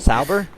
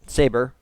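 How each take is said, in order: First: The first vowel falls between 'saber' and 'sober'. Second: The first vowel sounds like the vowel in 'saber'. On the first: The speaker calls it right. "it's somewhere in between" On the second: The speaker calls it wrong. "You're saying saber like saber tooth"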